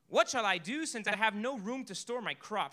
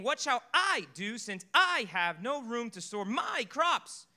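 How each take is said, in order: First: It is read in a plain, flat way. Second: It is read with lively, expressive intonation.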